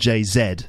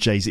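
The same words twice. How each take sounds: First: The final letter is said as 'zed'. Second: The final letter is said as 'zee'. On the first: "We don't call him [name]" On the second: "We call him [name]"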